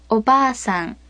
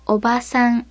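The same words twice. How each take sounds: First: おばあさん with a long, held "baa"; おばあさん said o-baa-san, vowel doubled. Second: おばさん with a short "ba"; おばさん said o-ba-san, no lengthening; short vowel. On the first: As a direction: draw out the middle a in おばあさん. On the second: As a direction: keep the middle a of おばさん brief. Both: Shown as a demonstration. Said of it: "The contrast in the long and short vowels".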